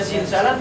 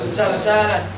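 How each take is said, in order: First: The first syllable has the vowel 'i'. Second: The first syllable has the vowel 'a'. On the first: "boleh dibaca zilzalan" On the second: "boleh difathahkan fa fi'ilnya"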